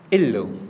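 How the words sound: The phrase begins with a glottal stop. This is how it is said in Levantine Arabic. "Pergi sampai Syria"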